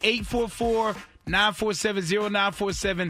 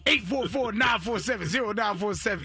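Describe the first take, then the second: First: It is said in his normal speaking voice. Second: It is said in a put-on gravelly wrestler voice.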